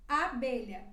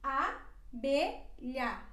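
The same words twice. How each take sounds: First: Said in the usual way. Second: Abelha stretched very slowly, both a open; drawn out so learners hear each open a; slow teaching demo. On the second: Shown as a demonstration. Teacher slows abelha right down for students. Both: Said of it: "nós temos duas As abertas".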